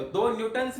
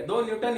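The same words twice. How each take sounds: First: दो न्यूटन्स with a clear s ending on न्यूटन्स; wrong plural. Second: दो न्यूटन with no s at the end of न्यूटन; correct unit form. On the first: Teacher shows students the wrong plural form. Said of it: "नहीं बोलेंगे". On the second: Teacher tells students the correct unit form. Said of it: "ही बोलेंगे". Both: Shown as a demonstration.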